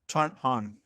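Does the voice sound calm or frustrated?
calm. It is said in a calm, plain voice.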